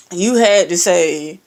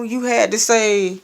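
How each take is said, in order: First: "had" hit louder with a rising tune; stress on had. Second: Said in the usual way. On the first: Real, not acted. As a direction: lean hard on "had" in "you had to say".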